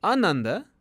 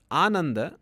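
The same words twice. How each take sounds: First: "Ananda" opening on a short a, as un-NAN-da; short first vowel. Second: "Ananda" opening on a long aa; long first vowel. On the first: Teacher giving the opposite of bliss, "Ananda" with short initial a. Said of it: "means the, the lack of". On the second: Teacher giving the word for bliss, "Ananda" with long initial aa. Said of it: "it means bliss". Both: Shown as a demonstration.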